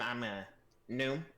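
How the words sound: It is said in a put-on goblin voice. The speaker calls it right.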